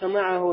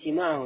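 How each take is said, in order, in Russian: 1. Первый гласный — открытое 'а'. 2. Первый гласный — переднее 'и'. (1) "не симааху, а самах" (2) "Некоторые говорят симааху. Неправильно"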